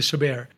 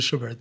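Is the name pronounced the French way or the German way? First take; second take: French; German. First: The name is given a French pronunciation. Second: The name is given a German pronunciation. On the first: The composer is treated as if he were French. "If he was French, he would be Schubert" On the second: The composer was Austrian. "he was Austrian, so it would be Schubert"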